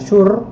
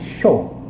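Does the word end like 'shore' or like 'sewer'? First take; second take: like sewer; like shore. First: It is read with an 'oo'-like vowel. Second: It is read with an 'aw'-like vowel. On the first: The speaker calls it wrong. "bukan sure" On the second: The speaker calls it right. "tapi show"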